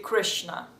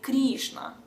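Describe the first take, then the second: First: It is said with an American accent. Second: It is said with a Russian accent.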